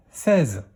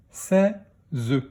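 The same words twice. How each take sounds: First: Said in the usual way. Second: "Seize" split into sè, ze; "Seize" in two beats; syllable by syllable. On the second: Shown as a demonstration. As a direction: sound out "Seize" with a separate final ze. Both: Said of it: "dans quelle syllabe".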